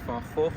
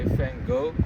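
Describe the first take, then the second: First: The name is pronounced the Dutch way. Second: The name is pronounced the English way. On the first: This is how locals say it. "the Dutch pronunciation is Van Gogh" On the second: This is how visitors usually say it. "you guys probably say Van Gogh"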